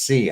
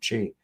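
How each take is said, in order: First: The word begins with an s sound. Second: The word does not begin with an s sound. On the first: "they say it's si" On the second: "I've always pronounced it qi"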